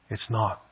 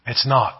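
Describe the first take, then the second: First: Much softer, low falling echo; soft repeat. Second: Said in the usual way. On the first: Shown as a demonstration. Preacher echoing his denial to the congregation, softly. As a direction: let it drop to a near hush.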